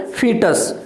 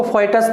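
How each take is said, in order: First: फीटस with a plain long ee, FEE-tus; फीटस, first vowel a pure ee. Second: फोइटस with an oi glide in the first syllable; फोइटस, first vowel gliding from o to i; common oi mispronunciation. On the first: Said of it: "तो फीटस हो गया ये word". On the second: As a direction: say फोइटस as FOY-tus. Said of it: "इसको फोइटस बोलते हैं कई लोग". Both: Shown as a demonstration.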